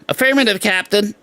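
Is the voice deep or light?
light. The voice is light, not deep. This is how the new actor sounds. The speaker calls it wrong. "he doesn't go"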